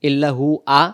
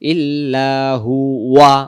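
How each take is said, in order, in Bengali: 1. শেষ অক্ষরটি w ছাড়া শুধু একটি স্বরধ্বনি। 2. শেষ অক্ষরটি w ধ্বনি দিয়ে শুরু হয়। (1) "যদি আমরা পড়ি ইল্লাহু আ ... ওয়াও বাদ গেল" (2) "ওয়াও জবর ওয়া"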